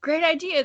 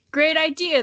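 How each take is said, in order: First: Higher, brighter exclaim read again. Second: Higher, louder cheerful exclaim. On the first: Misty Dragon praises the plan again, higher exclaiming. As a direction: cheer it out. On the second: Misty Dragon praises the plan, higher and louder exclaiming. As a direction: cheer the idea on. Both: Acted. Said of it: "the Misty Dragon exclaimed".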